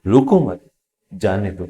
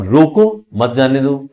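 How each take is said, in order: First: "रोको मत" as one group, pause, lower "जाने दो"; pause after मत. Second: "रोको" raised and louder, then "मत जाने दो" as one group; pause after रोको. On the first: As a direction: join "रोको मत", break, then let "जाने दो" fall. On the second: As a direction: punch "रोको", break, then join "मत जाने दो". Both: Shown as a demonstration. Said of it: "इसका अलग मीनिंग है".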